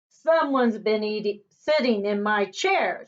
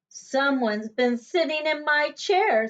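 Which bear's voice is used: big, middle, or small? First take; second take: big; middle. First: It is a great, rough, gruff voice. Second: It is a middle-sized bear's voice.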